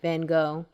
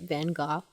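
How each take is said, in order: First: The name is said the common American way. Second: The name is said the way the British boy did. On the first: The speaker calls it wrong. "which I know I'm pronouncing the name wrong" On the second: The speaker calls it right. "he pronounces the name right. He pronounces it"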